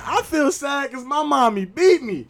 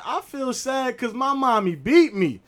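First: Put-on even higher, louder child confession; little girl again. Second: Put-on high, slow child confession; little girl. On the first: Neffy repeats it to the whole class, higher and louder. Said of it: "She said it again". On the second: Neffy tells the class why she is sad, high and slow. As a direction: say it slowly like an innocent preschooler. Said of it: "and Neffy like".

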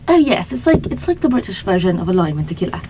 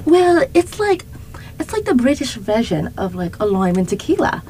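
First: Shaky-skilled British imitation, quick delivery; attempted British accent. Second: Attempted British accent slipping into Australian; higher-pitched botched British, Australian on the vowels; British turning Australian. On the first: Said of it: "I don't know how to do a British accent". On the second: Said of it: "Getting Australian".

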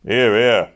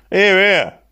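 First: Said in the usual way. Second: A high, loud call of approval. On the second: A narrator's reading. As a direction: cheer the boss on from the benches. Workmen loudly approving the boss.

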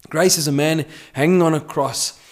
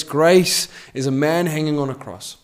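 First: Preacher hits hanging in the repeat; stress on hanging. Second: Grace stressed, falling at the end; preacher hits Grace. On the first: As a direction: lean on the word hanging. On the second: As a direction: lean on the word Grace. Repeated preaching line. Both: Acted.

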